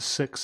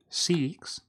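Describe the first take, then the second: First: It is said in a non-Australian accent. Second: It is said in an Australian accent. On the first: "As opposed to six" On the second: "Australians say sex"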